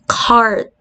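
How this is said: The R sound after the vowel is clearly pronounced. "Unlike dun sa American"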